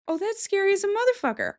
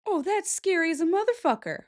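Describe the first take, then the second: First: Even higher and faster, really spooked; higher spooked cry. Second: High, spooked reaction; real fright at a photo; scared gasp. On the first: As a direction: let the fright spike up. Repeats, more frightened. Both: Real, not acted.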